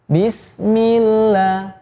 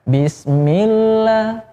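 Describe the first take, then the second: First: The melody heads downward from the start. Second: The melody heads upward from the start. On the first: The speaker calls it right. "dari awal juga sudah ancang-ancang untuk landing" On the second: The speaker calls it wrong. "kalau bismillah itu nadanya pengen take off"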